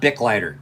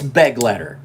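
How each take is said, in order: First: The first word has a short 'i' vowel. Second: The first word has a short 'e' vowel. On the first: The speaker calls it wrong. "It is not" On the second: The speaker calls it right.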